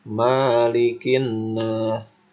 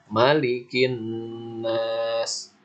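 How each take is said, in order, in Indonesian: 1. Vokal pertama dari malikin dibaca panjang. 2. Vokal pertama dari malikin dibaca pendek. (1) "maknya dibaca panjang. Itu kurang tepat ya" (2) "Yang benar itu dibacanya pendek"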